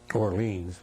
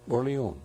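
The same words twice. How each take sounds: First: It is said with an American pronunciation. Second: It is said with a French pronunciation. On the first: This is how the soldiers called the town. "We called it uh" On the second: This is how the French say the town's name. "which is the French pronunciation of Orleans"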